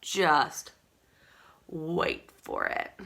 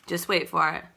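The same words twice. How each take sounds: First: "just ... wait for it" drawn out slow and soft with a long pause; slow, hushed teaser. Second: Said in the usual way. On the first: Shown as a demonstration. Teasing viewers about the new mascara, slow hushed suspense. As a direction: build suspense, low and slow. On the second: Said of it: "If you have not seen our new mascara".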